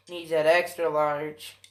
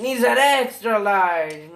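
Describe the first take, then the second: First: Said in the usual way. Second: Loud push on THAT EXTRA; raised voice, stressing "extra"; louder emphatic repeat. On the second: Real, not acted.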